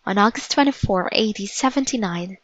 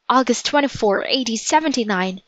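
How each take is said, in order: First: Said in the usual way. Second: A touch of dawning dread; mild alarm. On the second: Acted. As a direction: repeat the date with understated alarm. Jack realizes the date with dread.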